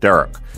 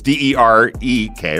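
First: The second vowel sounds like 'uh'. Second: The second vowel sounds like 'eh'. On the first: It imitates a Philadelphia accent. "It's like a D-E-R-U-K" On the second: It is the standard way to say the name. "it's D-E-R-E-K"

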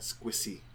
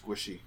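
First: The middle consonant is a plain 's' sound. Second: The middle consonant is an 'sh' sound. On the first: The speaker calls it wrong. "Not squishy" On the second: The speaker calls it right. "You forgot the H. It's squishy"

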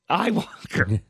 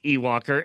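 First: The first syllable sounds like 'eye'. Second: The first syllable sounds like 'ee'. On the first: "E-Y-E. Which is I" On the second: "it is pronounced Ewoker, and they put it in a thing pronounced E"

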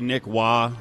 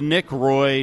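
First: The surname is said like 'wah', with no r. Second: The surname is said like 'roy', rhyming with boy. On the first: "that's why I said it two different ways" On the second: "that's why I said it two different ways"

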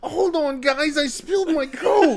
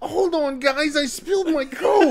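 First: It is said with exaggerated, dramatic distress. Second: It is said with exaggerated, dramatic distress.

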